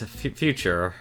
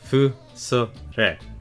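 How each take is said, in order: First: It is said with English pronunciation. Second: It is said with Japanese pronunciation. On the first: "that's what my name means in English" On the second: "pronounce it as if it was Japanese"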